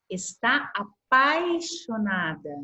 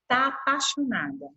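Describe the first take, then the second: First: Says "está apaixonada" slowly, full "está"; full standard form. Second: Says "Tá apaixonada" with the short colloquial "tá"; clipped tá form. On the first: Teacher to class, slow standard "está". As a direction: spell out "está apaixonada" carefully. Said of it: "A gente fala assim". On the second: Teacher to class, reading the colloquial "tá". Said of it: "na fala da amiga". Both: Shown as a demonstration.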